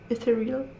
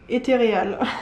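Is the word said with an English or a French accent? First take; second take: English; French. First: It is pronounced with an English accent. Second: It is pronounced with a French accent. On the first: "Je sais même pas comment ça se dit avec l'accent anglais" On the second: "je vais même pas essayer de le dire avec l'accent anglais"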